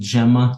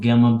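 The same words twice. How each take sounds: First: It begins with the same sound as Gemini. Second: It begins with a different sound from Gemini. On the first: The speaker calls it right. "I pronounce it Gemma ... because Gemini is definitely Gemini" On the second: The speaker calls it wrong. "not Gemma"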